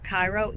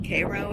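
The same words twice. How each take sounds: First: The first syllable sounds like 'eye'. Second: The first syllable sounds like 'air'. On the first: It names the city in Egypt. "it was named after Cairo, Egypt" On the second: It names the town in Illinois. "we pronounce it Cairo, um, Cairo, Aero"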